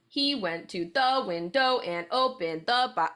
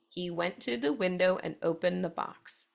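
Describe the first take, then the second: First: The stress falls in an odd, unnatural pattern. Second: The stress falls in a natural waltz-like pattern. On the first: The speaker calls it wrong. "I'm not going to read it like that. That sounds silly" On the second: The speaker calls it right. "where that emphasis falls"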